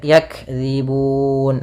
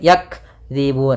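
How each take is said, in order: First: The word flows on without any pause. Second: The word breaks with a pause after yak. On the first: The speaker calls it right. "tapi dia langsung" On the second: The speaker calls it wrong. "tidak boleh putus, tidak boleh"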